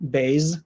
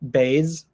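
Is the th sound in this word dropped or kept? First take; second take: dropped; dropped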